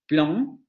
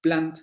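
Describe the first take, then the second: First: "plan" with a nasal vowel and no final consonant; standard nasal vowel. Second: "plant" as vowel plus a clear n and t, Spanish style; southern French. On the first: Teacher demos the standard nasal vowel in class. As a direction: say "plan" through the nose, standard French. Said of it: "se tendría que pronunciar". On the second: Teacher demos the southern pronunciation for students. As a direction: say "plant" with no nasal vowel, consonant spelled out. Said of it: "como lo pronunciamos en español". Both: Shown as a demonstration.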